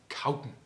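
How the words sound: The vowel is opened to an au diphthong. "da gibt das Kauken"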